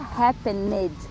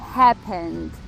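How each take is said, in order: First: The ending is an extra syllable with a vowel. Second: The ending is a bare consonant with no vowel. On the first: The speaker calls it wrong. "não fica happened" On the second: The speaker calls it right. "nem tem uma vogal aí, é só consoante mesmo"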